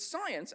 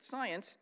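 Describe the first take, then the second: First: Put-on a quick, abandoned stab at the debater's accent, pitched higher; one-word imitation of the debater's accent, higher and a bit louder; John Lennox accent attempt. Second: Said in the usual way. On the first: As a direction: try the guest's accent on one word, then give up. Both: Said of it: "I can't do his accent because it's very nice".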